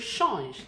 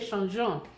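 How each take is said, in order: First: The verb ends without a final vowel sound. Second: The verb ends with an audible nasal vowel. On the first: The speaker calls it right. "See the way I pronounced it?" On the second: The speaker calls it wrong. "I didn't say changeant. Most French beginners make the mistake"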